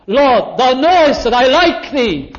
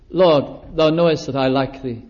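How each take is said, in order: First: Higher and louder, pleading; exasperated plea. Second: Sad confession. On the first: Peter answers the third question, a higher, louder hurt plea. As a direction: push back, hurt and pressed. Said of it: "What more do you expect?". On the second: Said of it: "Sad, isn't it?". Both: Acted.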